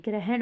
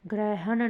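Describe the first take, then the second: First: ग्रहण as "gre-hen", ending on n; corrected form. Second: ग्रहण as "grai-ha-na", three beats; wrong form. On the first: Teacher giving students the correction, ग्रहण as "grehen". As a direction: close ग्रहण on the n, no final vowel. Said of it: "ग्रहण होगा". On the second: Teacher showing students the error, ग्रहण as "graihana". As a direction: let a vowel follow the last n of ग्रहण. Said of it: "ग्रहण नहीं". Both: Shown as a demonstration.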